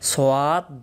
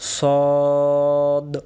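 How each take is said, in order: First: It is said as two syllables, like sowad. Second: It is said as one syllable, like sad. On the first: The speaker calls it wrong. "আমরা ছোটবেলায় মক্তবে এটাকে আমরা অনেকে পড়ছিলাম সোয়াদ দোয়াত" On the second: The speaker calls it right. "সঠিক উচ্চারণ সদ"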